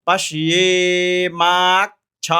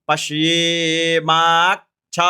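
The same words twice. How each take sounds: No difference in how they are said.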